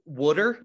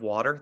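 First: The word is said in a Philly accent. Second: The word is said in a standard accent.

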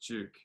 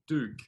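First: The word begins with a j-like sound. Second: The word begins with a plain d sound. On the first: The speaker calls it right. "no, it's Duke" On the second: The speaker calls it wrong. "not Duke"

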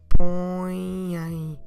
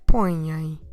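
First: The word is said slowly, split into two parts. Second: The word is said quickly as one unit. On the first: "So in two different moments" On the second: "A bit quicker now"

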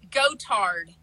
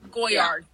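First: The middle consonant is a T sound. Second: The middle consonant is a Y sound. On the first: "I thought it was like with a T" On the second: "That sounds better"

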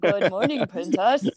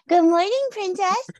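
First: It is said in a deeper, manlier voice. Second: It is said in a usual, lighter voice.

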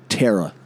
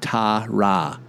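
First: The name is said with an American pronunciation. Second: The name is said with an English pronunciation. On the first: The speaker calls it wrong. "Terra, they say it" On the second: The speaker calls it right. "Couldn't get more straightforward than that"

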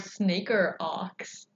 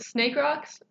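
First: The r sound ends the first syllable. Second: The r sound starts the second syllable. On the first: "I always thought of it in my head as snaker ox" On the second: "I knew it was snake rocks"

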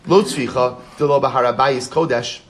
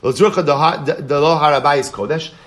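First: It is said with a statement intonation. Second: It is said with a question intonation. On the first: Money found there is not holy. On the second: Is it possible that money found there is not holy?

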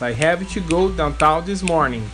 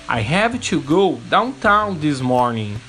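First: It is said at a fast pace. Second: It is said very slowly.

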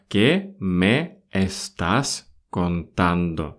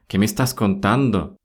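First: The phrase is said at a slower pace. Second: The phrase is said at a normal, quicker pace.

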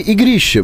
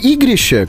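First: The stress is on the second syllable. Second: The stress is on the first syllable. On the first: "надо бы наоборот, именно вот на второе «и» ударение ставить" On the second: "как я сказал"

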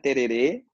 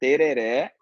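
First: The final vowel is a closed e sound. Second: The final vowel is an open e sound. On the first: The speaker calls it wrong. "não é tererê" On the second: The speaker calls it right. "é tereré"

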